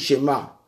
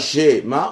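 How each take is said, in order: First: The stress is on the second syllable. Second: The stress is on the first syllable. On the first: The speaker calls it right. "on dit Shema. On met l'accent tonique sur la deuxième syllabe" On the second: The speaker calls it wrong. "on ne dit pas Shema"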